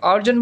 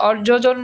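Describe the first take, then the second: First: অর্জন said as or-jon, J sounded once; no repeated syllable in অর্জন; single J. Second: অর্জজন said as or-jo-jon; slow অর্জজন with an extra jo inside; wrongly doubled J. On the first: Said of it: "অর্জন বলে অর্জজন বলি না". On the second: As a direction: repeat the J syllable in অর্জজন. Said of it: "অর্জজন বলি না". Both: Shown as a demonstration.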